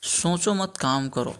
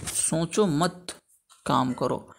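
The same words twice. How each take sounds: First: Slow सोचो, set apart from मत काम करो; group मत with काम करो, after सोचो; comma after सोचो. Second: Slow, drawn-out सोचो मत, pause, then काम करो; comma after मत. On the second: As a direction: hold मत, pause, drop onto काम करो. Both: Shown as a demonstration. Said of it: "तो इसका हो जाएगा".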